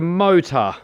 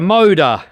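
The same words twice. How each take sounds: First: The middle consonant sounds like a T. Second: The middle consonant sounds like a D. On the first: The speaker calls it right. "Officially, it's supposed to be called a motor" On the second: The speaker calls it wrong. "instead of calling it a T, they call it a D"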